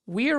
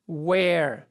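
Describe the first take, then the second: First: The contraction keeps a distinct 'we' sound. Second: The contraction sounds like the word 'where'.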